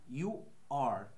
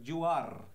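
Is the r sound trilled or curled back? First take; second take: curled back; trilled. First: The r is curled back, not trilled. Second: The r is trilled, tapping the palate. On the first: The speaker calls it right. "enroscamos la lengua hacia atrás" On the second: The speaker calls it wrong. "No vamos a decir you are, no"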